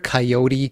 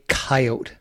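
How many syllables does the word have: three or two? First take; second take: three; two. First: The word is said with three syllables. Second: The word is said with two syllables. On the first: "It's got like sort of like three syllables, takes a little longer to say it" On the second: "it kind of rolls off the tongue a little quicker"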